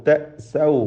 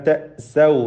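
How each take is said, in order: The two takes are said the same way.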